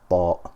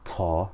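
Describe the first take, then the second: First: A heavy, full T with the tongue raised. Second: A light, thin T with the tongue lowered. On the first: The speaker calls it right. "That's because I'm doing itbaq. I'm sticking my tongue to the roof of the mouth" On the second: The speaker calls it wrong. "we will not pronounce Twa or Ta. No T sound will come out as some people pronounce it"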